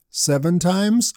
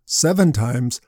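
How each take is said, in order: First: Slow rising question, a little higher; slow hopeful seven times; questioning guess. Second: Lower, doubting seven times; incredulous echo. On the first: Shown as a demonstration. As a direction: offer it as a tentative guess. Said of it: "What do you think?". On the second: Retold or imitated. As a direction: throw the number back in disbelief. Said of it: "Jesus' response likely surprised Peter".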